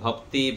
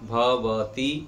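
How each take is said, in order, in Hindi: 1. बीच का स्वर छोड़ दिया जाता है, जिससे अक्षर सिकुड़ जाते हैं। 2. तीनों अक्षर पूरे बोले जाते हैं। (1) "ऐसे उच्चारण गलत है" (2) "उच्चारण ठीक से करेंगे"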